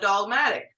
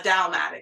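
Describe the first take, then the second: First: The first syllable sounds like 'dog'. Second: The first syllable sounds like 'dow'. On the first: The speaker calls it wrong. "I know you hear me saying dog" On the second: The speaker calls it right. "It's Dow"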